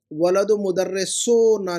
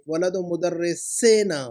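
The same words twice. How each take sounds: First: वलदु मुदर्रिसोना with the wrong -ona ending. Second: वलदु मुदर्रिसेना slowly, clear -ena ending; correct ending. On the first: Teacher marking a student's repeated mistake, wrong form. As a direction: present वलदु मुदर्रिसोना as the error. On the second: Teacher marking a student's repeated mistake, slow correct form. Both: Shown as a demonstration. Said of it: "नहीं".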